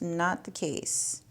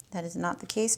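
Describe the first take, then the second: First: "not the case" slow, weight on "not"; slow emphatic repeat. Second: Said in the usual way. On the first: Real, not acted.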